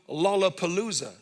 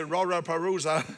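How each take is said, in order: First: The word is said with clear L sounds. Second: The word is said with R sounds replacing L. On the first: "make people say the word Lollapalooza" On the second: "would not be able to pronounce the L's and say Raraparuza"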